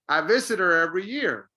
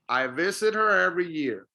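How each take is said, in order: First: The h in 'her' is dropped and linked. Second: The h in 'her' is dropped and linked.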